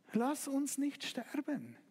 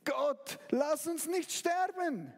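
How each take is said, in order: First: Slow, hushed desperate prayer; a softer echo of the plea; quieter repeated plea. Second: Slow, rising plea in fear; desperate prayer. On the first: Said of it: "Und du fängst an zu denken". (leises, langsames Flehen) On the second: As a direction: beg God not to let you die. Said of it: "Und du fängst an zu denken, Gott". (verzweifeltes, langsames Flehen) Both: Acted.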